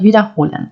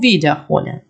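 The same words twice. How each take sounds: First: Wiederholen with the stress on HO; unstressed wieder in wiederholen, accent on HO. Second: Wiederholen with the first syllable WIE stressed; WIEderholen, prefix accented. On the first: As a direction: lean on the third syllable, wiederHOlen. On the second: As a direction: stretch and punch WIE in wiederholen. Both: Shown as a demonstration. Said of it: "слово має різний наголос".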